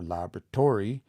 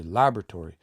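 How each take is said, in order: First: Laboratory as labra-TOR-y; wrong stress on TOR. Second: Laboratory quickly, with LAB stressed. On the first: Teacher shows what you don't say, laboratory stressed on TOR. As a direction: push the stress of laboratory late, onto TOR. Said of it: "You don't say". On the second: Teacher gives the way you say it, LAB stressed in laboratory. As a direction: land the stress on the first syllable of laboratory. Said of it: "you say laboratory". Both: Shown as a demonstration.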